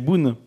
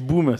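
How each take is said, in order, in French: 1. Le nom finit par un son n. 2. Le nom finit par un son m. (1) "c'est Boon" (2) "T'as dit Boum"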